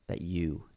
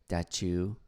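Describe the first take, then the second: First: The word you begins with a clean y sound. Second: The word you begins with a ch-like sound. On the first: The speaker calls it right. "you would say like that you write it" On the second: The speaker calls it wrong.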